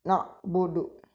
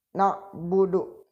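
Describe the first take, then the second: No difference in how they are said.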